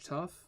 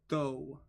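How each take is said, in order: First: The word ends with an f sound. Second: The word ends with a long vowel. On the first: The speaker calls it wrong. "That's not tough, is it?" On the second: The speaker calls it right. "It's though"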